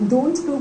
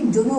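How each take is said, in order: First: The t in 'don't' is clearly said. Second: The t is dropped, giving 'dunno'. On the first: "डोंट know को भी" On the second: "डो नो बोल"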